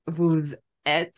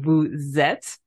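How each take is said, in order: First: The two words are said separately, no linking sound. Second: The final s links into the next word. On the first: The speaker calls it wrong. "instead of" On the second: The speaker calls it right.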